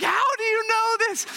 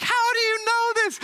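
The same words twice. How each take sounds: First: Much higher, louder, laughing through the question; laughing astonishment. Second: Much higher, louder amazed question; shocked, almost squealing; astonished waitress. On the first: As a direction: echo her shock with a laugh. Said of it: "I'm like". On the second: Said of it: "And she's like". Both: Retold or imitated.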